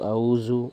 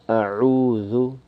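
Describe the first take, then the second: First: The middle consonant is a buzzing z sound. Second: The middle consonant is a soft th sound. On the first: The speaker calls it wrong. "that we don't say Zu ... These are all wrong pronunciations" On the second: The speaker calls it right. "the Dhal is with the tongue protruding somewhat"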